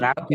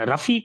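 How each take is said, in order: First: The first vowel is long. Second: The first vowel is short. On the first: The speaker calls it wrong. "நீங்கள் ராஃபி என்று சொல்கிறீர்கள்" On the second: The speaker calls it right. "ரஃபி என்று சொல்ல வேண்டும்"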